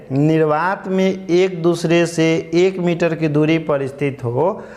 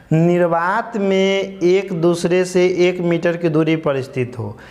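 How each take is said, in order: No difference in how they are said.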